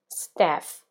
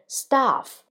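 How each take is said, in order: First: It is said with an American accent. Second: It is said with a British accent. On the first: "Probably the American accent we pronounce staff" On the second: "But for a British accent, we say staff"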